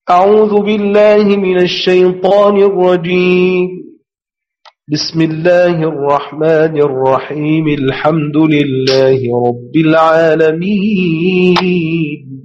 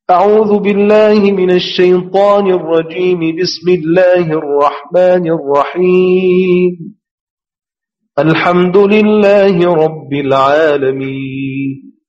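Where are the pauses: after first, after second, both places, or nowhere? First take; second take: after first; after second. First: There is a pause only after the first phrase. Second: There is a pause only after the second phrase. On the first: "يعني قف على الأول وهو التعوذ" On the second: "يعني صل البسملة بالتعوذ وقف على البسملة"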